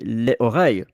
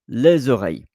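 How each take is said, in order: First: The words are said without a linking z sound. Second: The words are joined by a linking z sound. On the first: The speaker calls it wrong. "I will understand you if we say les oreilles" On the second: The speaker calls it right. "you are making the, the link z"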